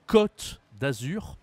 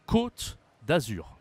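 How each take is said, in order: First: Côte with an open O, said slowly; no circumflex. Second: Côte with a closed, rounded O, said slowly; circumflex ô. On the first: Teacher contrasts two vowels for learners, open O in côte. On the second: Teacher contrasts two vowels for learners, closed O in côte. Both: Shown as a demonstration. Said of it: "C'est différent".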